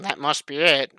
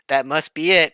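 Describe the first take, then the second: First: It is said in a mocking, sarcastic tone. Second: It is read in a plain, neutral tone.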